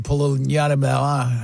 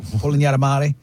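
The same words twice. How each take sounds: First: "Polignanamare" garbled, tailing into "pol-nya-ta-mel"; stumbled pronunciation. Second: "Polignanamare" sounded out in full as "po-lee-nya-ta-MA-ree"; retry "Polignanamare" with every syllable through the final "ree"; second attempt. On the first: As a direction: stumble on "Polignanamare", losing its last syllables. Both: Real, not acted. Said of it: "I can't say it".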